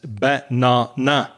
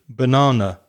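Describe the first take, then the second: First: Every vowel is said full and strong. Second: The unstressed vowels are reduced to schwa. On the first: The speaker calls it wrong. "all the vowels strong" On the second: The speaker calls it right. "We say banana"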